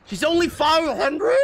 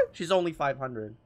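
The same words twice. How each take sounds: First: High, loud disbelieving squeak; shocked squeal. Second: Said in the usual way. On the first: Real, not acted. Squealing at the price in shock.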